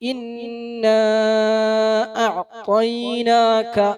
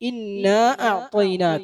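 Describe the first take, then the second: First: The long vowel is held for a long time. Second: The long vowel is held only briefly. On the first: "നാലോ അഞ്ചോ ഹർക്കത്ത് നീട്ടൽ എന്താണ്? ഉത്തമമാണ്" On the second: "ഒരു രണ്ട് ഹർക്കത്ത് നീട്ടിയും"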